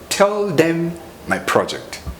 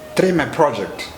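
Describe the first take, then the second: First: Tell them is said as two full words. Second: Tell them is blended into one reduced word.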